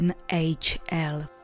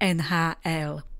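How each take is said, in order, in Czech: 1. Písmena se čtou anglickými názvy písmen. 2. Písmena se čtou českými názvy písmen. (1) "anglicky pak" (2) "Česky"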